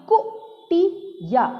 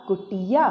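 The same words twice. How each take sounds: First: कुटिया in three slow, higher pieces, कु, टि, या; syllable by syllable. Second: Said in the usual way. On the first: Shown as a demonstration. Teacher reading कुटिया for children, syllable by syllable. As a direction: sound out कुटिया with clear gaps. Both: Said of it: "ऐसे नहीं पढ़ना होता है".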